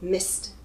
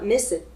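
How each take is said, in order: First: The ending is a single short t sound. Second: The ending is an extra syllable, like 'it'. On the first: The speaker calls it right. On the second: The speaker calls it wrong.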